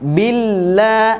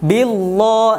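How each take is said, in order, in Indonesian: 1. Bunyi 'l' itu tipis dan ringan. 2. Bunyi 'l' itu tebal dan berat. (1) "lamnya tipis" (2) "bukan billah, eh, salah"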